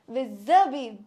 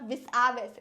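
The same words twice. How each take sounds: First: No S sound is pronounced inside the word. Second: An S sound is pronounced inside the word. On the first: The speaker calls it right. "Here S is not pronounced" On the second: The speaker calls it wrong. "It is not vis-a-vis"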